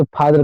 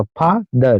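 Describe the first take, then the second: First: Said in the usual way. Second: "father" broken in two, फा, then दर; split into syllables. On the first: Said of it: "जैसे father का बोलिए". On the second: Shown as a demonstration. Teacher showing learners two syllables, "father" split as फा - दर. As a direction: pause between फा and दर in "father". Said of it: "पहले फा बोलते हैं, फिर दर बोलते हैं".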